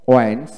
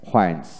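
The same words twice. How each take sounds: First: ওয়েন্স starting on w, no h; ওয়েন্স with a plain w onset; British w pronunciation. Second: হোয়েন্স with an audible h first; হোয়েন্স starting on breathed hw; American h pronunciation. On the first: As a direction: drop the h in ওয়েন্স. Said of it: "British উচ্চারণে". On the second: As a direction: sound the h in হোয়েন্স. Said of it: "আমেরিকানে হ". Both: Shown as a demonstration.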